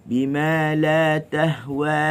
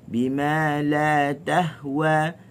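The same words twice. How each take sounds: No difference in how they are said.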